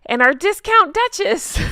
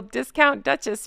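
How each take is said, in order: First: High, loud, mock-grand announcement; gleeful title announcement. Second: Said in the usual way. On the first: Gleefully reads mocking title, then laughs.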